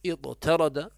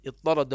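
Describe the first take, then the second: First: اضطرد as iṭ-tarada, ط then separate light t; original form. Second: اضطرد as iṭṭarada, one doubled heavy ط; merged form. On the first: Teacher gives the word's origin, اضطرد with light t. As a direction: say اضطرد in two parts, light t second. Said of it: "وأصله". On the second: Teacher reads out the example, اضطرد with doubled ط. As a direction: say اضطرد with no light t, just long ط. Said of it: "ومن الطرد". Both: Shown as a demonstration.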